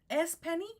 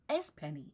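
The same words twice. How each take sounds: First: The pitch rises at the end. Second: The pitch falls at the end. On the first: It asks whether this is the person. "change the inflection upwards to make it into a question" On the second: It states that this is the person. "to make a statement, the inflection goes down"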